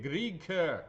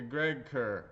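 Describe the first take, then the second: First: "Greg" said with a long ee, like "Greeg"; "Greg Kerr" with the vowel of "Greg" turned to ee; trial pronunciation. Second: Said in the usual way. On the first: Real, not acted. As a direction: try "Greg" slowly as "Greeg". Is that right?.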